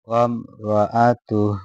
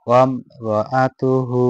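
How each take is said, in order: First: It ends clipped on a silent 'h' and stops. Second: It ends with a full 'hu' and runs on. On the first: The reciter stops and takes a breath here. "আর যদি এখানে দম ছেড়ে দেয় এই হাটাকে আমরা সাকিন্দা পড়বো" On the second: The reciter continues without stopping. "যদি না ছেড়ে দেয় লাস্টে এই হাটাকে আমরা হু করে পড়বো"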